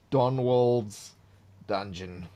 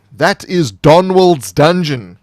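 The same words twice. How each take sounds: First: Soft, musing repeat of the title; quiet repeat. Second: Slow, loud, grand title reveal; dramatic title announcement. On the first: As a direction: say it again under your breath. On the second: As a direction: boom out the dungeon's name like a trailer. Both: Acted.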